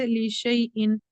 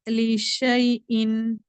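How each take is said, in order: First: Said in the usual way. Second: लिशैइन drawn out slowly, hamza not read; slow recited word. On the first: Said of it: "direct". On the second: Shown as a demonstration. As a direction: stretch लिशैइन syllable by syllable. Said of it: "ये हमजा नहीं पढ़ेंगे हम". (लिशैइन को धीरे खींचकर पढ़ना)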